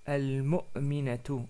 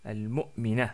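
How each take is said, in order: First: The word ends with a full 'tu' ending. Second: The word ends on 'a' without 't'. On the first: "Ça devient al-mu'minatu" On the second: "Sans prononcer la t à la fin"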